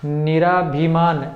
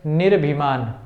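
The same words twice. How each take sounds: First: निराभिमान said slowly with a full "aa" after r, the incorrect version; teacher drags out निराभिमान as the form to avoid; wrong form shown. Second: निर्भिमान with a short clipped "nir" straight into "bhi"; correct form shown. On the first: Teacher showing students the misspelt word, slow and deliberate. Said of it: "निराभिमान नहीं होता है". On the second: Teacher giving students the correct form, falling finality. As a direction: say निर्भिमान as the right answer, ending in a falling tone. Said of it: "वो होता है निर्भिमान". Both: Shown as a demonstration.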